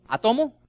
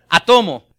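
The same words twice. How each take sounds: First: "Átomo" with the stress on the wrong syllable, a questioning rise; "Átomo" tried uncertainly, misplaced stress; "Átomo" stress on the wrong O, asked with a rise. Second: "Átomo" stressed on the first syllable, Á-to-mo, falling; "Átomo" said firmly with the corrected stress, ÁTomo; "Átomo" with stress on the initial Á, a confident fall. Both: Shown as a demonstration. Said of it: "Tenía el acento en la, en la O incorrecta".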